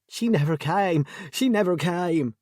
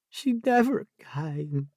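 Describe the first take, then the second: First: Higher and louder, a distraught wail; anguished cry. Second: Croaked. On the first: Jessie wailing to Debbie about her sister, anguished cry. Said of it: "Jessie cried out". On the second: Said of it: "she croaked". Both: A narrator's reading.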